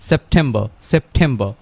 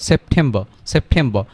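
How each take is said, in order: The two takes are said the same way.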